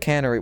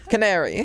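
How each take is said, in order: First: The middle vowel sounds like 'can-uh-ree'. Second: The middle vowel sounds like 'care', 'ca-nair-ee'. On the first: The speaker calls it wrong. "I knew I was saying it wrong" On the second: The speaker calls it right. "Canary, yes"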